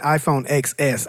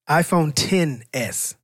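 First: The X is said as the letter X. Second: The X is said as the number ten. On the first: The speaker calls it wrong. "You said iPhone XS. I already know you're broke" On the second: The speaker calls it right. "That's a 10. It's not an X"

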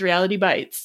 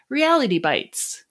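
First: The phrase is said in a flat, gloomy way. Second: The phrase is said in an upbeat, cheerful way. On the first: Reality is harsh and painful. "I can't say it that way. It's" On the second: Reality is something good or cool. "it makes it a little more cheerful rather than sort of nihilistic almost"

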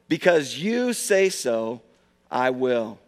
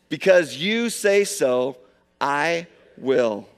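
First: It is said in a plain, calm way. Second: It is said loudly with great energy. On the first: "Can you just say that with me right now?" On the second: "One more time with gusto"

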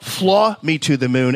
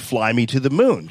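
First: The vowel in 'fly' is flattened toward 'aw'. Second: The vowel in 'fly' is a clear glide. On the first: The speaker calls it wrong. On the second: The speaker calls it right.

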